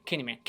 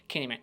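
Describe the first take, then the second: No difference in how they are said.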